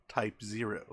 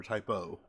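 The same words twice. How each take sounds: First: "Type Zero" with the number zero spoken in full. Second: "Type O" with the letter O, like "oh". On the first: Host weighing how to say the title, reading "Type Zero". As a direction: say "Type Zero", the word zero clearly. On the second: Host trying the other way to say the title, "Type O". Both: Shown as a demonstration. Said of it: "How are we supposed to technically say it".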